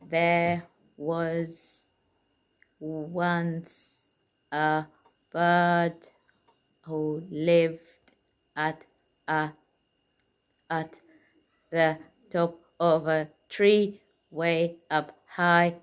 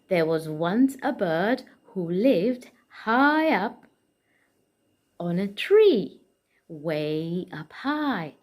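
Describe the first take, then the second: First: It is read flatly, word by word. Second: It is read expressively, like a storyteller.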